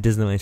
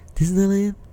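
First: It is said in a plain, flat way. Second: It is said in a very excited voice.

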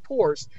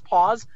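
First: The word is said like pores, with an r. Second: The word is said like paws, no r sound. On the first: The speaker calls it wrong. "She was pronouncing it pores" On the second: The speaker calls it right. "she wasn't pronouncing it P-A-W-S, paws"

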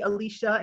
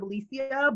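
First: The name is pronounced the English way. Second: The name is pronounced the Spanish way. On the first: This is how others wrongly say the name. The speaker calls it wrong. "people calling me Alicia" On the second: This is how the owner of the name says it. The speaker calls it right. "instead of Alicia ... we know some Spanish is in there"

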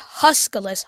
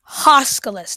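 First: The name is said with a different vowel. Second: The name is said with an 'o' vowel. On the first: The speaker calls it wrong. "not Huskalus" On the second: The speaker calls it right. "It's spelled with an O. Huskalus"

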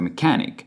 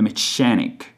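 First: The middle consonant is a hard k sound. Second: The middle consonant is a ch sound. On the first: The speaker calls it right. "CH, in which H is not pronounced" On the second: The speaker calls it wrong. "not the mechanic"

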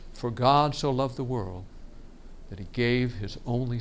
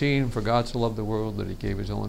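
First: It is louder and varied in pitch. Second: It is quiet and flat in pitch. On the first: The speaker calls it right. "Notice the change in the tone" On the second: The speaker calls it wrong. "That was too low a volume. It was all the same tone"

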